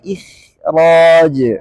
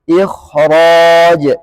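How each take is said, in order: First: The kh sound is said with reduced heaviness. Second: The kh sound is said fully heavy and thick. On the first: The speaker calls it wrong. "nggak boleh" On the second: The speaker calls it right. "kembali lagi ke tingkat yang sempurna"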